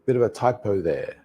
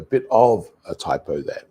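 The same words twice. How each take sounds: First: Joined "bit of a", with "of" reduced; connected-speech take of "bit of a typo there"; linked pronunciation. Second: Louder, lower, with a full "of" set apart; careful unlinked "bit of a"; full careful form. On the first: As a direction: run "bit of a" into "bidova" before typo there. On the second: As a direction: stress "of" as a separate word, "bit OV a typo". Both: Shown as a demonstration. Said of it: "let's think about that pronunciation".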